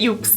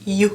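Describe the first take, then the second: First: The word ends with a 'ks' sound. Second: The word ends on a plain vowel sound. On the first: The speaker calls it wrong. "if you don't say it, ukes" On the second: The speaker calls it right. "it's you"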